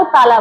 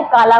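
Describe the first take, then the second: First: ताला with T replacing the K of काला; child's lisp. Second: Said in the usual way. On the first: Shown as a demonstration. Teacher shows a child's slip on काला, lisped ताला. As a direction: say ताला, fronting K to T. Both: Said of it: "तो बच्चा क्या है".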